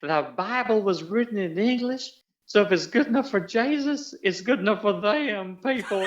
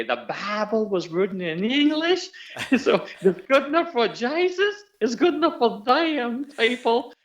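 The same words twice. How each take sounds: First: High, twangy Southern lady on TV; Southern twang. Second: Put-on high Southern accent breaking into laughter, slowed; Southern twang, laughing. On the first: Retold or imitated. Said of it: "she taught me how to say the dialogue". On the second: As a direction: repeat the Southern line while cracking up. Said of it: "she was teaching me how to say".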